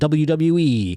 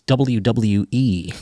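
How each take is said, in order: First: The letters are slurred together and garbled. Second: Each letter is said clearly and separately. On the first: The speaker calls it wrong. "I said that like a real mook there" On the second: The speaker calls it right. "Should have said it like that"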